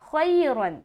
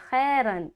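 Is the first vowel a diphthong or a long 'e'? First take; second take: diphthong; long e. First: The first vowel is a soft 'ay' diphthong. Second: The first vowel is a long 'e' sound. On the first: The speaker calls it right. "बल्कि" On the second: The speaker calls it wrong. "बाज़ औक़ात लोग जब मजहूल पढ़ते हैं ना, वो इसी तरह से अदा करते हैं"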